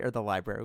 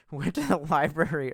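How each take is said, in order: First: Said in the usual way. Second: Library said the Boston way, with a laugh; Boston accent. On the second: Shown as a demonstration. Retelling the Boston trip, a laughing Boston accent.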